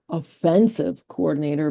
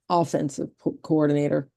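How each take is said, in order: First: The stress is on the second syllable. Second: The stress is on the first syllable. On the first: The person is insulting. The speaker calls it wrong. "Not offensive coordinator" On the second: The person runs the attacking side of play. The speaker calls it right. "but offensive coordinator"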